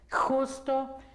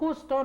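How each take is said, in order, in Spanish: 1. El sonido de la 'j' se pronuncia con énfasis fuerte. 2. El sonido de la 'j' es suave y sin esfuerzo. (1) "nosotros en español no decimos justo ... no tenemos que darle énfasis" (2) "cuando decimos justo"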